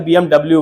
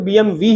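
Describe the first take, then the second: First: The last letter is said as 'double-u'. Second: The last letter is said as 'vee'. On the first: This is how Indians commonly say it. "But हम Indians से B M डब्ल्यू बोलते हैं" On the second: This is what it is properly called. "बोलते तो B M वी ही है इसे हम"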